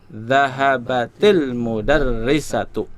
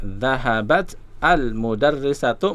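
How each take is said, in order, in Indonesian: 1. Kata pertama tersambung ke artikel dengan -i-. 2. Kata pertama berakhir terpisah sebelum artikel. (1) "baca sambung" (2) "kalau kita baca apa adanya"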